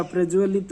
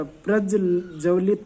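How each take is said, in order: First: प्रज्वलित with j joined straight to v; correct form. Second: प्रज्वलित with doubled j and a vowel before v; wrong form. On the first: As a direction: say प्रज्वलित as praj-va-lit. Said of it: "प्रज्वलित होता है". (प्रज्वलित में 'ज्व' मिलाकर सही उच्चारण) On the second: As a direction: say प्रज्वलित as praj-ja-vlit. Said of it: "प्रज्वलित नहीं होता". (प्रज्वलित को 'प्रज्जवलित' जैसा गलत बोलना) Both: Shown as a demonstration.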